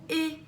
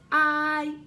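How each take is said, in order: First: The vowel is short, sounding like 'ih'. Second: The vowel is long, sounding like 'eye'. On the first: A closed syllable gives the vowel its short sound. The speaker calls it wrong. "and not I" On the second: A silent final E makes the vowel say its name. The speaker calls it right. "that I says I"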